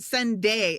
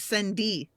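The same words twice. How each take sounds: First: It ends in a standard 'day' sound. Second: It ends in a Texan 'dee' sound.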